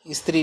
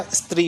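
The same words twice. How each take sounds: First: स्त्री with a stray 'i' in the cluster; wrong vowel. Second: स्त्री with tight 'str', no inner vowel; correct cluster. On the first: Teacher ruling out the misspelling, स्त्री with an extra 'i'. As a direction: say स्त्री as is-tiri. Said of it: "ई की मात्रा नहीं आएगी". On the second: Teacher giving the right form, स्त्री with a tight 'str'. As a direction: say स्त्री as stree. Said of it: "होता है". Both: Shown as a demonstration.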